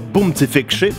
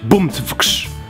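First: Vowels are inserted between the consonant clusters. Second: The consonants run together with no added vowels. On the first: The speaker calls it wrong. "dziewczyny mówią to bumcyfykszy" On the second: The speaker calls it right. "chłopaki umieją powiedzieć bumcwksz"

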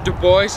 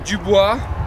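First: The name is said the way locals say it. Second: The name is said in a non-local way.

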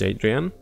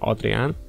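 First: The name is said with English pronunciation. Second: The name is said with local pronunciation.

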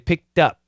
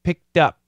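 First: The end of picked sounds like a D. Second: The same.

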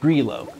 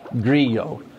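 First: The double L sounds like a clear L. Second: The double L sounds like a Y. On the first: The speaker calls it right. "It's Grillo" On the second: The speaker calls it wrong. "the double L isn't like Spanish where it's like a Y, so it's not Grillo"

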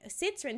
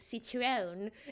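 First: The word is said in a plain, normal accent. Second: The word is said in a thick accent. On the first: "Instead of saying, like" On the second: "a pretty thick accent ... she goes, like"

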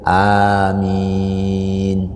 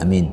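First: The vowel is long and drawn out. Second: The vowel is short and not drawn out. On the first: The speaker calls it right. "Suara itu dipanjangkan" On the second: The speaker calls it wrong. "Jadi bukan amin amin, bukan itu"

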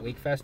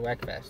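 First: The first vowel is a long 'ee' sound. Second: The first vowel is a short 'e' sound. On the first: The speaker calls it right. "It's actually pronounced Weekfest" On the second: The speaker calls it wrong. "I hear people say Weckfest"

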